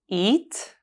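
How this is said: The pitch rises on the word.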